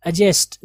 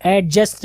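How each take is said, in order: First: एडजस्ट as "uh-jest", low and loud; silent d. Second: एडजस्ट with a loud sounded d, "AD-just"; mispronunciation. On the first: Teacher reminding students from today onward, silent d. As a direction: say एडजस्ट firmly without any d. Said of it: "डी silent". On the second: Teacher warning students what not to say, mispronunciation. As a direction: hit the d in एडजस्ट, the mistaken way. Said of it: "नहीं पढ़ेंगे". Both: Shown as a demonstration.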